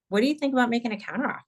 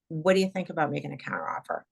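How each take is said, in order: First: The voice rises at the end. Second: The voice falls at the end. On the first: The speaker is unsure about it. "your upswing" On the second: The speaker is confident about it. "With the downswing"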